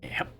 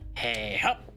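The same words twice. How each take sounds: First: It is said with ordinary, modest energy. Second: It is said loudly with much more energy.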